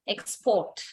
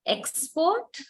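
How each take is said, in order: First: "export" with PORT stressed, falling at the end; stress on second syllable. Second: "Export" with EX stressed, higher pitch and rising end; stress on first syllable. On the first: Teacher has students listen carefully, "export" stressed on PORT. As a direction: put the weight on PORT in "export" and let it fall. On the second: Teacher has students listen carefully, "Export" stressed on EX. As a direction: lean on EX in "Export", lifting it as a question. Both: Shown as a demonstration. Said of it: "just listen carefully".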